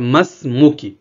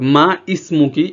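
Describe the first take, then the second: First: The two words run together without the vowel. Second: The two words are separate with the vowel.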